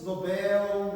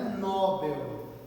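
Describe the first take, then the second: First: The stress is on the last syllable. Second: The stress is on the first syllable. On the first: The speaker calls it right. "palavras oxítonas" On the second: The speaker calls it wrong. "não é Nobel"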